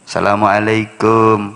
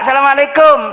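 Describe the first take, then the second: First: It is said in a polite, modest style. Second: It is said in a casual, friendly style. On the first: The speaker is visiting someone's house. "kalau mau namu ke rumah orang, jangan pakai gaya ceramah" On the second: The speaker is greeting someone met on the street. "Ketemu orang di jalan ... beda lagi gayae"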